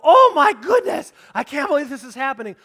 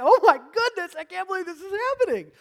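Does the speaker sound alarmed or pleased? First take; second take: alarmed; pleased. First: It is said in a panicked, freaked-out tone. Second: It is said in a pleased, untroubled tone.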